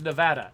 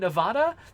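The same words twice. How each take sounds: First: The name has an American-style pronunciation. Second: The name has a Spanish-style pronunciation. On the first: This is the official local pronunciation. The speaker calls it right. "the correct pronunciation of of Nevada is Nevada" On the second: This is what the spelling seems to suggest. The speaker calls it wrong. "it looks like it should probably be Nevada"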